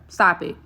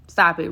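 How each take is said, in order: First: Said in the usual way. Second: "Stop it" repeated firmer, with a slight push on "Stop". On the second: Real, not acted. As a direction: press harder on "Stop" the second time.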